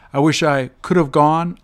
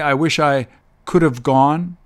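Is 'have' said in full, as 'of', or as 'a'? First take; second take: of; in full. First: Have is reduced to a quick 'of' sound. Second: Have is pronounced fully, at a slower pace. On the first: "When they're spoken quickly" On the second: "So the long way"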